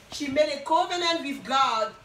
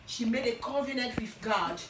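First: Covenant pushed out louder, the whole line louder; stress on covenant. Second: Said in the usual way. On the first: Shown as a demonstration. Preacher repeats to the congregation, louder with stress on covenant. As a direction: lean hard on covenant the second time. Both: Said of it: "repeats line for emphasis".

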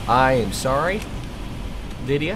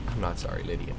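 First: Mock apology. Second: Quiet, low muttered aside. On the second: Real, not acted. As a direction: say it under your breath.

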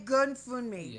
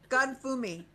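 First: "Fun Me" with a sounded N before the M; N pronounced. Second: "Fumi" as foo-mee, no N before the M; silent N. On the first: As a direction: say "Fun Me" as foon-mee. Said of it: "you don't get to pronounce the N". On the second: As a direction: say "Fumi" with the N dropped. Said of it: "Don't pronounce the N". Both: Real, not acted.

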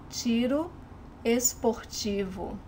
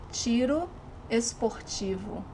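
The two takes are said the same way.

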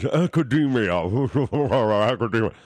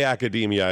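First: "Academia" drawn out in a silly distorted voice; put-on "Academia". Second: Said in the usual way. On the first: Shown as a demonstration. Host showing caller how to say it, put-on "Academia". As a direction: ham up "Academia", slurring and stretching the word. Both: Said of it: "I wish you would say it like this".

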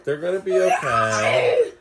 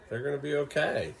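First: Laughing while telling his son the characters will be okay; laughing through words. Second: Said in the usual way. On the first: Real, not acted. Dad reassures his son during the movie, laughing.

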